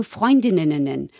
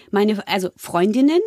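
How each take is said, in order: First: „Freundinnen“ said slowly, with extra syllables added; stumbling over a word. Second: Said in the usual way. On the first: Shown as a demonstration. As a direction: drag out „Freundinnen“ as if the word won't come out right. („Freundinnen“ mühsam und verhaspelt gesprochen) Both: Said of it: "ich konnte das Wort Freundinnen nicht sagen".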